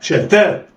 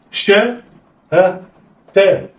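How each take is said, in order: First: شاء تاء snatched together in one go; blended quickly. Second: Each syllable apart with pauses; letters read separately. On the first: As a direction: run شاء and تاء together without a break. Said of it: "اخطف". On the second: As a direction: sound out شاء and تاء one at a time, a pause between. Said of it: "يلا، اقرأ". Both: Shown as a demonstration.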